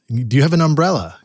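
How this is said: It is said in a Boston accent. "I come from Boston and everything. We would have said"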